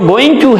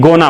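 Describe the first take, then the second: First: Both words are said fully and separately. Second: The words are reduced and run together. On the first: "जो going to है" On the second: "बोलने में gonna बोला जाता है"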